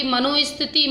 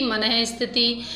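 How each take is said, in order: First: मनोस्थिति with "o" after man; wrong o form. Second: मनः स्थिति with breathed "h" after mana; visarga form. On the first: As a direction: say मनोस्थिति as "mano-isthiti". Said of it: "अशुद्धि इसमें क्या है". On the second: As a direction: put an h in place of o in मनः स्थिति. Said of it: "ओ की जगह विसर्ग". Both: Shown as a demonstration.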